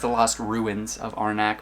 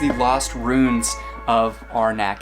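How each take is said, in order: First: The word sounds like 'ruins', two syllables. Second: The word sounds like 'runes', one syllable. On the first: The speaker calls it right. "It's the Lost Ruins of Arnak" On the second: The speaker calls it wrong. "I prefer to mispronounce the title of it"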